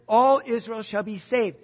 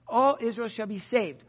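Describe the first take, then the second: First: Louder, ringing proclamation of all Israel; proclaimed emphatically. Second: Said in the usual way. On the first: Shown as a demonstration. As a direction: proclaim it like a trophy. Preacher restates key verse.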